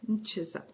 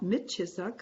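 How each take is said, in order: First: The m runs straight into ch, no vowel. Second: An i vowel sits between m and ch. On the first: The speaker calls it right. "just mchisak" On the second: The speaker calls it wrong. "Not mitchisak"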